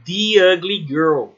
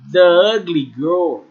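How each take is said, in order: First: 'The' uses its before-vowel form, like 'thee'. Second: 'The' uses its before-consonant form, like 'thuh'. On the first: The speaker calls it right. "vai ser the ugly girl" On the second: The speaker calls it wrong. "em vez de ser the ugly girl"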